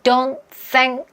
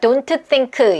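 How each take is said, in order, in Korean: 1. don't 뒤에 살짝 끊김이 있어요. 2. 단어들이 끊김 없이 이어져 있어요. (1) "살짝씩 더 끊어질 수밖에 없어요" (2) "이렇게 하지 않고"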